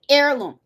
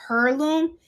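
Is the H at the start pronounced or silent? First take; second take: silent; pronounced. First: The word begins with a vowel, H silent. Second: The word begins with an audible H sound. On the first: The speaker calls it right. "the H is silent. That's how you say it" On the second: The speaker calls it wrong. "I kept saying heirloom"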